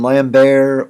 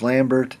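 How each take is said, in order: First: The name is said the French way. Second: The name is said the English way. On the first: "French pronunciation Lambert" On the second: "English Lambert"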